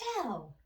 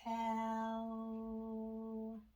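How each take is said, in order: First: The word is said quickly in one go. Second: The word is drawn out slowly, sound by sound. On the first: "Say it fast" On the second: "Let's blend it slow"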